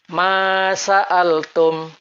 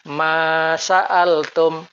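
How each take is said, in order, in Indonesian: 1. Vokal setelah hamzah dibaca pendek. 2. Vokal setelah hamzah dibaca pendek.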